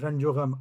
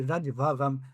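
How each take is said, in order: First: The words are linked with 'o' into one phrase. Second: The words are separated with a distinct 'va'. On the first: It sounds like a single set phrase. The speaker calls it right. "रंजो गम एक साथ बोलने में भी बन रहा है" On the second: It sounds like two separate words, not a phrase. The speaker calls it wrong. "वो लग रहा है जो टुकड़े टुकड़े में"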